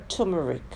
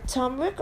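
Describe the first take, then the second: First: Turmeric in three syllables, TUR-mer-ick; alternative pronunciation. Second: Turmeric in two syllables, TURM-rick; alternative pronunciation. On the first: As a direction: say turmeric with the middle syllable sounded. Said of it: "how you say it". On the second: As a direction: say turmeric with the middle vowel dropped. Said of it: "Comment below as in syllables". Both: Shown as a demonstration.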